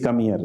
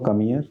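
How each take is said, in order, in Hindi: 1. यह कठोर, आदेश भरे लहजे में कहा गया है। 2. यह कोमल, प्यार भरे लहजे में कहा गया है। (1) "लेकिन मैंने टोन अपनी चेंज कर दी" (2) "आपको लगता है ये प्यार से तो बुला रहे हैं"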